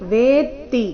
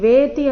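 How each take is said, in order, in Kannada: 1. vetti ಯಲ್ಲಿ ಮಧ್ಯದ t ಶಬ್ದ ಎರಡು ಬಾರಿ ಇದೆ. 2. vetti ಯಲ್ಲಿ ಮಧ್ಯದ t ಶಬ್ದ ಒಂದೇ ಬಾರಿ ಇದೆ. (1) "ವೇ ದೀರ್ಘ ನಂತರ ತಕ್ಕೆ ತದ್ವತ್ತು" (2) "ಇಲ್ಲಿ ವೇತಿ ಅಂತ ಇಲ್ಲ"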